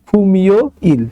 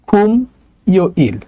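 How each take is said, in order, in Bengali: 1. m পরের শব্দাংশে চলে যায়। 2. প্রথম শব্দাংশের শেষে m, আলাদা থাকে।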